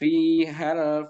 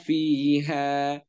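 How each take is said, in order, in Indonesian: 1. Vokalnya pendek, tersambung ke kata berikutnya. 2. Vokalnya dibaca panjang sebelum bunyi henti. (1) "dengan tidak memanjangkan haknya" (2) "maka dia dibaca panjang"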